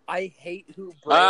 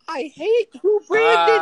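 First: It is said at a lower pitch. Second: It is said at a higher pitch.

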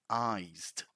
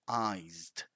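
The two takes are said the same way.

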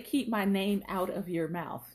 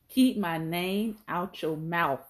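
First: The word 'of' is said before 'your'. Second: The word 'of' is dropped before 'your'. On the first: The speaker calls it wrong. "We don't say keep my name out of your mouth" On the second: The speaker calls it right. "We say keep my name out your mouth"

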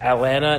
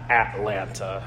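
First: It is said the way locals say it. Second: It is said the way outsiders say it. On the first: The speaker calls it right. "That's how we say it" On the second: The speaker calls it wrong. "not Atlanta"

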